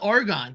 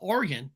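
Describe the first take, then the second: First: It is said the East Coast way. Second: It is said the local Northwest way. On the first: This is how outsiders say it. The speaker calls it wrong. "people on the East Coast always call it Oregon" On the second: This is how locals say it. The speaker calls it right. "everybody knows in Northwest it's called Oregon"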